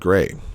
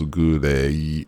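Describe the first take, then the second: First: The word is said as one syllable. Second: The word is said as three syllables. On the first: "for the word gray" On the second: "pronounced out as three syllables"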